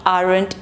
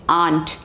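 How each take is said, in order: First: The word does not sound like 'aunt'. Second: The word sounds just like 'aunt'. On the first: The speaker calls it wrong. "It is not aren't" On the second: The speaker calls it right. "it's aunt. Uncle, aunt, aunt, same pronunciation"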